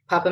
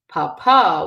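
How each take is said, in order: First: The stress is on the first syllable. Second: The stress is on the last syllable. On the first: It means potato. "means potato" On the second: It means father. "with the accent on the last day, it becomes father"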